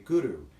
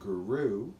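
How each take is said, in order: First: The R is rolled with the tongue. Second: The R is soft and not rolled. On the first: The speaker calls it right. "with a rolled R" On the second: The speaker calls it wrong. "instead of saying Guru"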